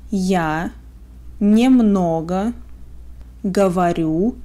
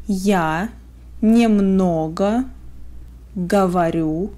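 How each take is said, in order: Both takes have the same delivery.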